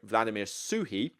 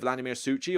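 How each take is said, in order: First: The surname has a soft h sound in the middle. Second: The surname has a harsh ch sound in the middle. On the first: The speaker calls it right. "apparently, that's how you pronounce it" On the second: The speaker calls it wrong. "You don't pronounce it with a chi, like C H"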